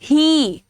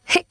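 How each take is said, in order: First: The vowel is a long ee sound. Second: The vowel is a short e sound. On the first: The speaker calls it right. "बड़ी का sound है" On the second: The speaker calls it wrong. "ऐसे नहीं बोलते ना"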